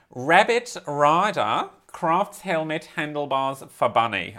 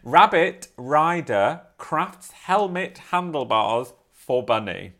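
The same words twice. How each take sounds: First: Slow, lightly Australian headline read; Australian accent attempt. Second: Slow, drawn-out Australian news read; Australian accent. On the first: Reading the headline to her co-host in an Australian accent. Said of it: "I can't read it in the whole Australian accent". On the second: Reading the headline again to her co-host in a fuller Australian accent. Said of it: "Let me read it in". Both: Shown as a demonstration.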